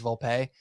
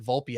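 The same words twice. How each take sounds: First: Quoted Volpe with "pay" as the last syllable; Volpe ending in PAY. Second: Put-on the old Volpe, last syllable "pee"; Volpe ending in PEE. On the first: Retold or imitated. Host quoting the player's correction, Volpe said vol-pay. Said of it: "he's like". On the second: Host recalling his old habit, Volpe said VOL-pee. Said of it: "gotta get Volpe out of my mind".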